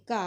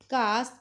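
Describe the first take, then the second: First: घा with final s dropped; Punjabi form. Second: घास with final s; Hindi form. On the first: Teacher showing the Punjabi form, open-ended घा. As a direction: leave घा open on aa. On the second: Teacher giving the Hindi word, घास with s. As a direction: close घास on s. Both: Shown as a demonstration. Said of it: "Punjabi च बोलांगे".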